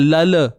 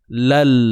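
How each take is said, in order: First: A vowel is added after the final l. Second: The syllable ends on a closed l sound. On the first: The speaker calls it wrong. "Jangan lala" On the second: The speaker calls it right. "Lal bunyi dia"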